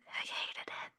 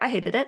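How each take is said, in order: First: It is whispered. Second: It is spoken aloud.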